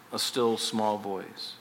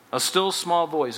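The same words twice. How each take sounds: First: Soft, slow and much lower, almost hushed; still small voice. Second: Said in the usual way. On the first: Shown as a demonstration. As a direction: let it shrink to a gentle hush.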